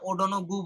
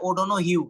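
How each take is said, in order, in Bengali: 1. নামটি একটি কঠিন 'goo' শব্দে শেষ হয়। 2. নামটি একটি নরম 'hew' শব্দে শেষ হয়। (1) "একটা উচ্চারণ করতে পারে না, ওডোনো গু বলে।" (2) "কিন্তু এটার উচ্চারণ হচ্ছে ওডোনো হিউ।"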